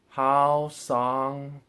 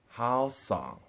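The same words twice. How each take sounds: First: Both syllables carry the first tone. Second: The second syllable carries the fifth tone. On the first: "both of them as the first tone" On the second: "and so on and so forth"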